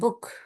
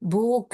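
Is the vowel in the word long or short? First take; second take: short; long. First: The vowel is short. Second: The vowel is long. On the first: The speaker calls it right. "Small உ" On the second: The speaker calls it wrong. "பூக் இல்ல"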